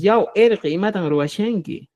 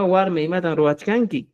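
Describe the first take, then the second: First: "roachanki" softened to a SH sound, slowly; quechua cusqueño. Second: "roachkanki" with CH and K both sounded; quechua de Apurímac. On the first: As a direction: say "roachanki" the Cusco way, with SH for "chk". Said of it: "Pero en Cusco decimos". ("roachanki" con sonido SH, como en Cusco) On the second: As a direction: say "roachkanki" the Apurímac way, keeping the "chk". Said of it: "en Apurímac decimos warmas". ("roachkanki" con "chk", como en Apurímac) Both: Shown as a demonstration.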